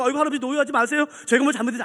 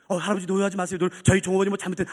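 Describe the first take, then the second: First: Quick, slightly raised placating voice; hurried acted apology; flustered employee. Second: Lower, measured placating voice; smooth it over as the senior manager; lightly voiced low, official apology; composed manager. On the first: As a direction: placate the customer in a hurry. Flustered employee placating shouting customer.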